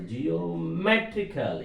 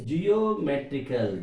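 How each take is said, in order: First: "geometrical" slowly, leaning long on MET; stress on MET. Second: Said in the usual way. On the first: Shown as a demonstration. Teacher marking stress for students, slow "geometrical" with MET stressed. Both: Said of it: "M above".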